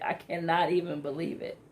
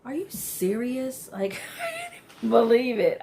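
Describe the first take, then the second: First: Said in the usual way. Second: Louder, higher, half-laughing in disbelief. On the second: Real, not acted. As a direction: laugh through the shock. Stunned by husband's behavior.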